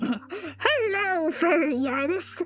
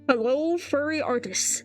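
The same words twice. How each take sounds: First: It is said in a Joker impression voice. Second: It is said in his normal voice.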